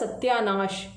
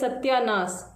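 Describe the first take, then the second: First: The word ends with an sh sound. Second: The word ends with a plain s sound. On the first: This is the standard form. "सही मायने में होता सत्यानाश, जो आगे का स दंसा होगा और आखिरी का स तालव्य होगा" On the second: This is the everyday colloquial form. "बहुत लोग उसको ऐसे बोलते हैं"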